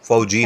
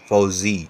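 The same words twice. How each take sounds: First: The middle consonant is a 'j' sound. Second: The middle consonant is a 'z' sound. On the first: The speaker calls it wrong. "नहीं" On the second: The speaker calls it right. "जेड है, not जे"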